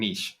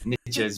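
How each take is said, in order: First: It is said with a non-American pronunciation. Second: It is said with an American pronunciation.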